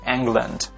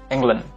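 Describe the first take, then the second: First: The final d is clearly released. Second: The final d is held without release. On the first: The speaker calls it right. "tapi diletupkan" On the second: The speaker calls it wrong. "bukan England, bukan ditahan"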